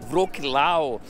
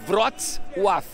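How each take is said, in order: First: The name is read aloud as it is spelled. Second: The name is said with native Polish sounds. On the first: The speaker calls it wrong. "você pode pronunciar da maneira que você achar melhor" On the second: The speaker calls it right. "na realidade fala Wrocław"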